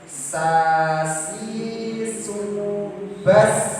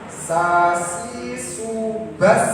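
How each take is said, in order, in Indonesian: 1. Bunyi s-nya penuh tapi tidak dipanjangkan. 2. Desis s dipanjangkan terlalu lama. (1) "harus sempurna" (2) "terlalu gitu desisnya itu atau nya itu terlalu lama terlalu panjang"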